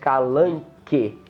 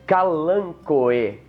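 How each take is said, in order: First: The final vowels merge into one sound. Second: The final O and E are said separately. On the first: The speaker calls it wrong. "não é" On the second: The speaker calls it right. "esse O E é uma daquelas exceções onde eles são pronunciados de modo separado"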